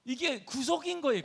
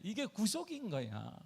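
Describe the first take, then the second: First: 구속인 hit higher and louder; stress on 구속인. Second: 이게 stressed, the line said slowly. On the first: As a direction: punch 구속인 high. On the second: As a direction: lean on 이게 and take it slowly. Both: Shown as a demonstration. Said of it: "구속 이게".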